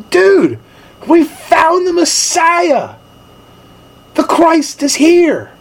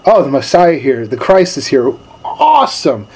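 First: High, slow, awestruck announcement; excited news. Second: Casual, unimpressed "Oh, the Messiah here"; a fisherman shrugging off the Messiah, mildly casual; offhand shrug. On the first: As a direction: tell your brother you found the Messiah, wide-eyed. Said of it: "he grabs Peter and he goes". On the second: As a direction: brush off the big news like it's nothing. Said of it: "we just go right back to our daily norm". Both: Retold or imitated.

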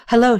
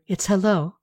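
First: Brighter, louder hello; Hello spoken aloud, higher and louder. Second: Said in the usual way. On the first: A narrator's reading. Katie greets Rebea aloud after thinking it. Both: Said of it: "she said out loud".

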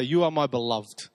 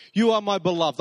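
First: Tender. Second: Proclaimed with weight on you; grand declaration, you stressed; declaring. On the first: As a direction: say it gently, like a secret. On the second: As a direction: announce it like a line from a play. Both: Shown as a demonstration. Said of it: "it sounds like it was something they'd say".

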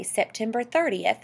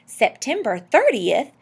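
First: Said in the usual way. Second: Louder, higher, drawn-out question; excited question. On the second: A narrator's reading. Husband catching the date his wife mentioned, excited. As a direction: seize on the date with rising excitement. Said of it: "said Mister Popper in an excited tone".

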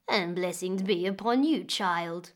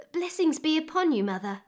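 First: A lightly voiced old woman, a bit lower; old woman answering. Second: Put-on a lightly higher, brighter young girl's voice; a young girl greeting a stranger, voiced a touch higher; girl greeting politely. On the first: Old woman greeting the weeping May, lightly lower old voice. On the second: May greeting the odd old woman, a lightly higher girl's voice.

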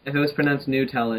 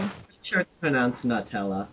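First: Quickly quoting "Nutella" with an oo; mocked noo-tella pronunciation. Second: "Nutella" begun like the word nut; nut-ella pronunciation. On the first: Arguing against the friend's version, "Nutella" said NOO-tella. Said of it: "it would be N O O T E L". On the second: Correcting a friend on the name, "Nutella" said NUT-ella. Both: Shown as a demonstration.

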